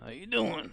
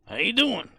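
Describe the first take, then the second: First: Imitating Dave. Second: High, loud greeting; mock cheerful greeting; imitating Dave. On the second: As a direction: pitch it way up like the guy did. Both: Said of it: "That's exactly how the guy would sound".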